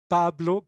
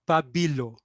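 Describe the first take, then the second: First: The b runs straight into the l. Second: A vowel is heard between the b and l. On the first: The speaker calls it right. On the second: The speaker calls it wrong. "but not Pabilo"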